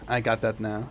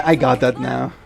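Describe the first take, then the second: First: Said in the usual way. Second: Put-on bright uptalk Valley Girl. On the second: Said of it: "Valley Girl".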